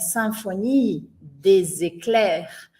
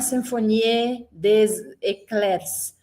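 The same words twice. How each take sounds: First: The final letters of the words are silent. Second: The final letters of the words are pronounced. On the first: The speaker calls it right. "A gente interrompe o som antes da palavra terminar" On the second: The speaker calls it wrong. "não é"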